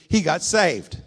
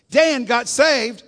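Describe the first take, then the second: First: Loud, rising preacher's proclamation; proclaiming. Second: Much higher, louder and slow, leaning hard on Dan; shouted proclamation. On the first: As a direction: announce the good news with a lift. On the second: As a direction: hold each word as a triumphant preacher. Preacher proclaims the conversion. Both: Acted.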